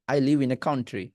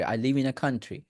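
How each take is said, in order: First: Country said "KAUN-tri"; slow, with an "ow" in country; common wrong country. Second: Country said "KAN-tri"; short a in country, like kan-tri; correct country. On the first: Retold or imitated. Teacher mimics the usual mistake, "kaun-tri". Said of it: "এরকম করে বলা হয়". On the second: Shown as a demonstration. Teacher models the sentence for students, "kan-tri". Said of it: "country, not country".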